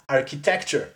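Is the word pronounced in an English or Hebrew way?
English. It is said the English way, ending in -cher. The speaker calls it right. "it was great improvement over architectura"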